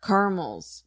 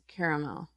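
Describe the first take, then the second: First: "Caramels" as CAR-mulls, softly; two-syllable pronunciation. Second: "Caramel" as CARE-a-mel, very soft; three-syllable pronunciation. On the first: Guest testing herself quietly, "Caramels" as CAR-mulls. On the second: Guest testing herself, "Caramel" as CARE-a-mel. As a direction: give "Caramel" three syllables, lower and quiet. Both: Shown as a demonstration. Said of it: "all of these words both ways".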